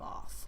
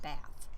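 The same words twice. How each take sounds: First: It is said with a British accent. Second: It is said with a Southern American accent. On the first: The speaker calls it right. "I think we're British, so we should probably say Bath" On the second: The speaker calls it wrong. "It sounds like you're from the South"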